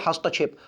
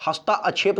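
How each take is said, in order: First: हस्तक्षेप said as hast-kshep, no long aa after hast; correct pronunciation. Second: हस्ताक्षेप with a long aa, hastaa-kshep; wrong pronunciation. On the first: Teacher to students, showing the correct हस्तक्षेप. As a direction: say हस्तक्षेप with a short, clipped hast before kshep. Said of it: "हस्तक्षेप होता है". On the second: Teacher to students, showing the wrong हस्ताक्षेप with long aa. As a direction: stretch the aa in हस्ताक्षेप, the mistaken form. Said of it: "हस्ताक्षेप नहीं". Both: Shown as a demonstration.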